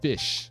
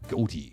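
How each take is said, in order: First: The name is said like 'fish'. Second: The name is said like 'goatee'. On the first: The speaker calls it right. "This is how you pronounce this word" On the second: The speaker calls it wrong. "This isn't actually pronounced goatee though"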